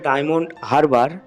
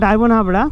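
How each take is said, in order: First: The second word is said like 'Harbar'. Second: The second word is said like 'Habra'. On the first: The speaker calls it right. "উচ্চারণটা হবে diamond হারবার" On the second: The speaker calls it wrong. "আমি বারবার diamond হাবড়া উচ্চারণ করেছি, যার জন্য আমি দুঃখিত"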